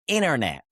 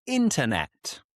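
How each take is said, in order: First: "internet" said as innernet, with the T dropped; American, no T. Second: Said in the usual way. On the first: Shown as a demonstration. Teacher showing the US "internet" without a T. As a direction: drop the T in "internet" the US way. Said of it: "they would say". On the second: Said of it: "This is good".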